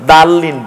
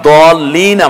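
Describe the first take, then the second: First: The first vowel is an open 'a' sound. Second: The first vowel is a rounded 'o' sound. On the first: The speaker calls it wrong. "বলি না" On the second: The speaker calls it right. "আমরা বলি"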